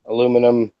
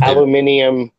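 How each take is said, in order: First: "aluminum" as "uh-LOO-mi-num"; American pronunciation. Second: "Aluminium" as "al-yoo-MIN-ee-um"; British pronunciation. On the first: Offering an example of accent difference, American "aluminum". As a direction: say "aluminum" with four syllables, stress on LOO. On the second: Offering an example of accent difference, British "Aluminium". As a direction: say "Aluminium" with five syllables, stress on MIN. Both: Shown as a demonstration. Contrasting British and American names.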